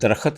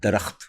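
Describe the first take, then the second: First: It is said with a rural Punjabi pronunciation. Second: It is said with a standard Urdu pronunciation. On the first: The speaker calls it wrong. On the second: The speaker calls it right.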